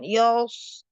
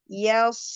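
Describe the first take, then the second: First: The vowel is thick and dark, like 'o'. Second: The vowel is thin and light, like 'a'. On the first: The speaker calls it wrong. "jangan yos, ya-nya ikut tebal" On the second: The speaker calls it right. "ya tipis"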